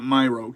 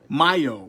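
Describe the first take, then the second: First: The syllable is said with an r sound. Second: The syllable is said without an r sound. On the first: The speaker calls it wrong. "not myro" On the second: The speaker calls it right. "Myo, myo, not myro"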